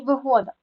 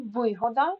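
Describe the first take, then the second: First: ВиГОда, stressed on the second syllable; вигода with middle stress, as a demo; stress shows meaning. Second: ВИгода, stressed on the first syllable; вигода with initial stress, as a demo; stress shows meaning. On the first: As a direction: move the punch in вигода to ГО. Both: Shown as a demonstration. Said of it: "значення слова залежить від наголосу".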